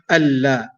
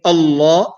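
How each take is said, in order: First: Allah with a thin, light lam and bright a; Allah said light and forward. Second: Allah with a heavy, full lam and dark a. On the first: Teacher showing students the wrong light lam. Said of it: "not Allah". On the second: Teacher showing students the heavy lam. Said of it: "the heavy manner". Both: Shown as a demonstration.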